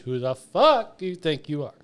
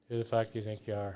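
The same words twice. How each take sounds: First: It is said with an indignant, entitled tone. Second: It is said mildly, without an indignant tone. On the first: The speaker calls it right. "you need to sound more Karen-y" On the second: The speaker calls it wrong. "she was so nervous and so scared"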